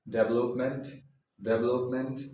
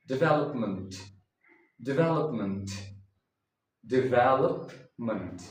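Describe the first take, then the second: First: Development said "DEV-el-ope-ment"; development stressed on the first syllable; wrong way. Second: Development said "dih-VEL-up-munt"; development stressed on VEL, ending "munt"; correct way. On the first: Teacher shows the common mistake with development. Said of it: "No, that is wrong". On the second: Teacher models the correct development. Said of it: "the correct pronunciation is". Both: Shown as a demonstration.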